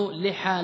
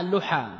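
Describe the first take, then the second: First: لحى said "liha", short i after the l; kasra form. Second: لحى said "luha", short u after the l; damma form. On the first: Teacher giving the first of two allowed plurals, kasra form. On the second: Teacher giving the second allowed plural, damma form. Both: Shown as a demonstration. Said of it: "بالكسر والضم".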